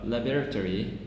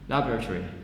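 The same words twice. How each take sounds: First: Every syllable is pronounced slowly. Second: It is said quickly with a vowel dropped.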